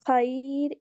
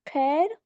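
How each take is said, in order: First: The vowel is said as an 'ai' sound. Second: The vowel is said as an 'e' sound. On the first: "इसकी मारूफ आवाज़ है" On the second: "मजहूल आवाज़ है"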